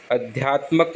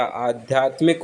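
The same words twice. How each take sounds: First: अध्यात्मक as "adhyaat-mak"; short first a, "mak" ending in अध्यात्मक; wrong short vowels. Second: आध्यात्मिक as "aadhyaat-mik"; long first aa, "mik" ending in आध्यात्मिक; correct long opening. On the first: Teacher showing the error, अध्यात्मक with "mak". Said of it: "अध्यात्मक नहीं होता". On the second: Teacher correcting it, आध्यात्मिक with "aa" and "mik". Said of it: "आध्यात्मिक होता है". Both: Shown as a demonstration.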